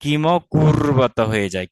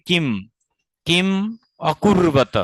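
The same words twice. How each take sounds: First: কিম অকুর্বত run together as one word after sandhi, slowly; joined pronunciation. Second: কিম said on its own, a pause, then অকুর্বত; separated pronunciation. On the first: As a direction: join কিম and অকুর্বত without a break. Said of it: "দুটাকে তখন সন্ধি হয়ে গিয়ে". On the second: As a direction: break after কিম before অকুর্বত. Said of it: "তখন উচ্চারণটা কি হবে?". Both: Shown as a demonstration.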